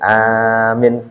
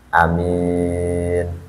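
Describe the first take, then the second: First: The first vowel is long, the second short. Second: The first vowel is short, the second long. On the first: The speaker calls it wrong. "a-nya panjang, min-nya pendek" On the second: The speaker calls it right. "a-nya pendek, min-nya panjang"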